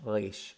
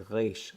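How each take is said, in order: No difference in how they are said.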